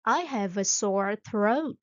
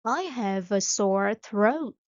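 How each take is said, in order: Both takes have the same delivery.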